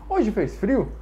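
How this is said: The voice rises at the end, a question.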